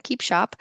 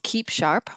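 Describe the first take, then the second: First: Boston accent, "Keep Sharp" with the r dropped, "Shahp". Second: Said in the usual way. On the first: Shown as a demonstration. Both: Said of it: "This is my Boston accent".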